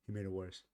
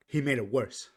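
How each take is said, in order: First: Said in the usual way. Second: He made it worse, with He punched loud; emphatic. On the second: Shown as a demonstration. Blaming the singer's ex, He made it worse said loud and emphatic. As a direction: hit He hard and loud to land the blame.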